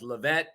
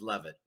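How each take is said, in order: First: The name is said in its original form. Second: The name is said in its anglicized form. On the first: This is how the family name was first said. "The original pronunciation was Levet" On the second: This is how the name is said in English now. "the en- English translation is Levitt"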